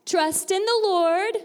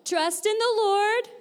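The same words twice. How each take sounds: First: High, slow, projected classroom call; teacher calling out a line to echo; call for repetition. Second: Higher, drawn-out rallying call; teacher urging a bigger echo; a little louder. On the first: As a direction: lead the group to repeat, loud and drawn out. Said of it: "repeat after me". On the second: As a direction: call it out higher to rouse the group. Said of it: "let's say it a little louder". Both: Shown as a demonstration.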